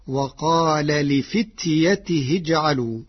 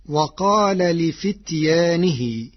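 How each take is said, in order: First: لفتيته with short ya and ti; Warsh without alif. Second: لفتيانه with long aa and n; slow, stretch the aa after ya in لفتيانه; usual reading with alif. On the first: Teacher shows Warsh's reading, short لفتيته. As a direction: drop the long aa, say t with i in لفتيته. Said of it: "بحذف الألف التي بعد الياء وتاء مكسورة، فتصير". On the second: Teacher cites the word before changing it, long alif in لفتيانه. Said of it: "بحذف الألف التي بعد الياء". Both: Shown as a demonstration.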